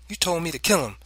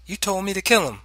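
First: Firm, high-pitched comeback; positive counter. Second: High, louder protest; child's protest. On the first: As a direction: counter father with certainty. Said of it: "I countered positively". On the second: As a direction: protest to father in a child's raised pitch. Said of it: "I said". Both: A narrator's reading.

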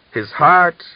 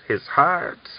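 First: Loud and high, a furious cry; hissed. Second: Higher, angry hiss with the rise on heart. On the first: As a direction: spit the word heart out, loud and high. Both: A narrator's reading. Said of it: "Miran hissed".

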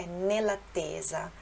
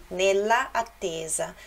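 First: Nell'attesa run together smoothly; with elision. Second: Nella attesa with two separate a sounds; without elision. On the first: Teacher showing the fluid elided form. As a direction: glide nella into attesa. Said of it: "Em vez de falar". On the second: Teacher showing the form without elision. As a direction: keep nella and attesa apart. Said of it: "então seria assim". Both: Shown as a demonstration.

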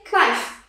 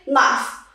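First: Knife with the K sounded, k-nife; wrong pronunciation. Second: Knife as nife, silent K; correct pronunciation. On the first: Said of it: "No, it's not correct". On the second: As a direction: start knife on the N. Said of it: "We say knife". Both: Shown as a demonstration.

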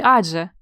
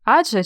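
First: "адже" with the consonant before ж held; "адже" split slightly before же; drawn-out consonant. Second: Said in the usual way. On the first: Shown as a demonstration. Teacher asking which spelling is right, "адже" drawn out. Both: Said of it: "як пишеться".

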